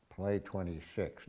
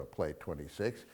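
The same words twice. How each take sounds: First: Soft, slow hushed take on Play twenty-six; quiet demo whisper. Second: Soft and slow, the whisper he does not use; whispered take. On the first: Retold or imitated. Telling the Casablanca scene, a hushed wrong-way Play twenty-six. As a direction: hush it low and slow, as the wrong way. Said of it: "he doesn't whisper". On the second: Shown as a demonstration. Showing how Rick does not say it, a quiet whisper. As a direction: breathe it low, Play twenty-six. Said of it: "Now, he doesn't whisper".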